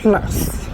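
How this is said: The word is given a French pronunciation. "The pronunciation plus is French pronunciation"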